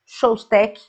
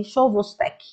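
First: "Chostek" in two syllables, without the middle "vo"; tentative pronunciation. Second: "Chovostek" in three syllables, sho-vos-TEK; tentative pronunciation. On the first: Teacher trying an unfamiliar medical name, tentative "Chostek". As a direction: say "Chostek" as a short "SHOS-tek". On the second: Teacher unsure how it is pronounced, tentative "Chovostek". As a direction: sound out the middle "vo" in "Chovostek". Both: Shown as a demonstration. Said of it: "Eu não sei se pronuncia assim".

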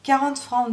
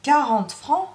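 First: Mildly timid, pitched higher. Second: High, incredulous question rising at the end; exclaiming. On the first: Servant names her wage to madame, mildly timid. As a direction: offer it with a touch of timidity. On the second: Madame hears the servant's wage demand, exclaiming in disbelief. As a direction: throw it back as an outraged query. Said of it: "s'exclama madame". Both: Acted.

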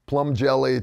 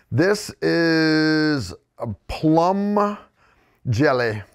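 First: Said in the usual way. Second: Slow, drawn-out mock French accent; redneck French accent. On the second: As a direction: stretch it in put-on redneck French. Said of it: "redneck French accent that I can pull off".

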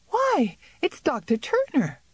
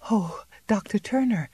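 First: High, startled cry of recognition; cry of surprise. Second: Impulsive cry. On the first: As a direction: gasp out the name in sudden surprise. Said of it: "gave a cry of surprise". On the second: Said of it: "she cried impulsively". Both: A narrator's reading.

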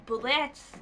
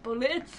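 First: "bullets" drawn out, lifting at the end; odd pronunciation. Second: "Bullets" short, with a rising end; echoed odd pronunciation. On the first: Player reading out an item, oddly lilting "bullets". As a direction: say "bullets" oddly, stretched with an upward lilt. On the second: Player echoing their own odd word, short rising "Bullets". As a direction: try "Bullets" out briefly, lifting the end. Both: Shown as a demonstration. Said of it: "don't know why I said it like that".

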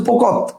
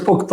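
First: পোকত ending on a consonant t; পোকত, closed final t; first form, পোকত. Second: পোক্ত with an o after the t; পোক্ত, open final vowel; second form, পোক্ত. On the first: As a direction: say পোকত with no vowel after the t. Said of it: "প্রথমটা হচ্ছে". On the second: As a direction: say পোক্ত as pok-to. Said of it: "আর পরেরটা হচ্ছে". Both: Shown as a demonstration.

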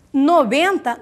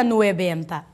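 First: "noventa" said nobenta, plain o and stress on BEN; correct noventa. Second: "nuebenta" with we in place of the first o; wrong diphthong. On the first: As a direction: keep the o pure, stress the middle of "noventa". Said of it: "Se está no benta". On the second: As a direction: mistaken form, nue- at the start of "nuebenta". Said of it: "não vira nuebenta". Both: Shown as a demonstration.

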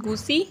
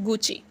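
First: Gucci said as goo-see; wrong pronunciation. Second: Gucci as goo-chee, stretched o and i; correct pronunciation. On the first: Teacher showing the wrong Gucci, goo-see. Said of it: "not Gucci, it's Gucci". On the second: Teacher stressing the vowels of goo-chee. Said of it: "ओ और ई पे थोड़ा सा stress". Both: Shown as a demonstration.

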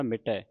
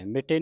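First: ਮਿਟੈ ending in open "ai"; correct open ending. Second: ਮਿਟੇ ending in narrow "e", pitched up; wrong vowel ending. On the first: Teacher corrects students' reading, ਮਿਟੈ with open "ai". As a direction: say ਮਿਟੈ with a wide final "ai". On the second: Teacher shows students the misreading, ਮਿਟੇ with "e". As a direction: say ਮਿਟੇ as "mit-ay". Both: Shown as a demonstration. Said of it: "ਮਿਟੇ ਨਹੀਂ ਪੜ੍ਹਨਾ".

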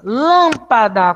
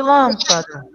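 First: "Lâmpada" slowly, with a long swelling LÂM; stress on first syllable. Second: Said in the usual way. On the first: Shown as a demonstration. Teacher quizzes class on tonic syllable, slow stressed "Lâmpada". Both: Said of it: "Qual é a sílaba tônica de lâmpada?".

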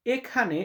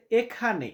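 The two takes are said the same way.

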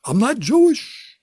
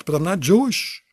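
First: High, slow, drawn-out rising "Jewish"; Jewish comic inflection. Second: Said in the usual way. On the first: Shown as a demonstration. Comic denying he is Jewish, in a put-on Jewish lilt. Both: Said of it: "I could do Jewish jokes".

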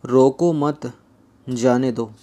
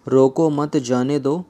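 First: रोको मत, long break, then जाने दो; pause after मत. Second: Slight break after रोको, slow delivery; comma after रोको. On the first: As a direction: break the sentence clearly after मत. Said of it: "अथवा". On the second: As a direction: set रोको apart from मत जाने दो. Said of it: "रोको के आगे कोमा लगाया है". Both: Shown as a demonstration.

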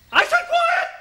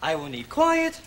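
First: Sudden high-pitched shout; shouted order. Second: Said in the usual way. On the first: Acted. Accent teacher silencing the class, shouted order. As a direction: explode into a demand for silence.

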